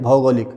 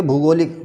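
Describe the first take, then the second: First: भौगोलिक with "bhau" first; correct form. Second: भूगोलिक with "bhoo" first; wrong form. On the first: Teacher corrects students, भौगोलिक starting "bhau". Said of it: "सही है". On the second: Teacher shows an error, भूगोलिक starting "bhoo". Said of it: "जो गलत है". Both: Shown as a demonstration.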